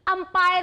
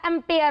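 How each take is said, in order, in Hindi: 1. यह शब्द 'umpire' जैसा सुनाई देता है, 'ai' स्वर के साथ। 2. यह शब्द 'ampere' जैसा सुनाई देता है, 'e' स्वर के साथ। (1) "अंपायर नहीं होता" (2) "एम्पेयर होता है"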